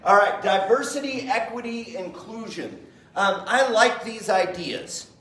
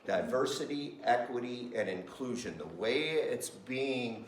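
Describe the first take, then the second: First: Higher, brighter listing of ideas he loves; upbeat approval. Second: Grave skepticism. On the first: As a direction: announce them cheerfully, like good news. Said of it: "I love these ideas in theory". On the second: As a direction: say it like a warning. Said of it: "In practice". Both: Shown as a demonstration.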